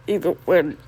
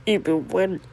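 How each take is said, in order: Both takes have the same delivery.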